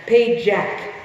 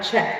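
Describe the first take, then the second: First: The name is said as two syllables, pa-jak. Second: The name is said as one syllable, check. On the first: The speaker calls it right. "So it's pronounced Pajak" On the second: The speaker calls it wrong. "not check"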